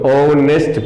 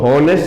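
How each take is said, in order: First: The word begins directly with a vowel sound. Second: The word begins with an audible h sound. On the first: The speaker calls it right. "हम इसको ऑनेस्ट पढ़ते हैं" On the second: The speaker calls it wrong. "हम इसको हॉनेस्ट नहीं पढ़ते हैं"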